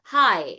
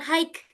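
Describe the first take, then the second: First: The word ends on the vowel, no consonant. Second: The word ends with a hard consonant sound. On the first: The speaker calls it right. "tapi high. Jadi G H itu tidak dibaca" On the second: The speaker calls it wrong. "Jadi bukan hike gitu ya"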